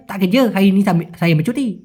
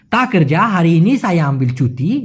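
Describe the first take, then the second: First: Slurred, run-together Malaysian slang. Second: "তা কর যা" with every sound present; clear pronunciation. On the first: Teacher contrasting the reply, in Malaysian slang. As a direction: swallow the sounds as in Malaysian slang. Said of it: "আর ওদের স্ল্যাংয়ে". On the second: Teacher giving the full reply, clearly articulated. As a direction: articulate "সায়া আমবিল চুটি" word by word. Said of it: "যদি স্পষ্ট করে বলি". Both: Shown as a demonstration.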